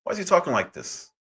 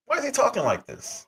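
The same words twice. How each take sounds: First: Said in the usual way. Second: Much higher, baffled repeat; disbelieving rhetorical question; exasperated. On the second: Real, not acted. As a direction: throw up your hands and ask again.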